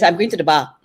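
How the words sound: It has a Malaysian accent, shortened.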